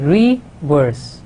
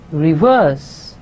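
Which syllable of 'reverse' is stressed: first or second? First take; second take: first; second. First: The stress is on the first syllable. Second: The stress is on the second syllable. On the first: The speaker calls it wrong. "we don't say reverse" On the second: The speaker calls it right. "we say reverse"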